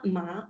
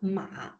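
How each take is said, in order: First: It is said with the second tone. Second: It is said with the third tone. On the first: It means annoying. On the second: It means horse.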